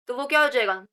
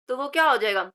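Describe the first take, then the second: No difference in how they are said.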